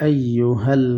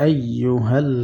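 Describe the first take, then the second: Both takes have the same delivery.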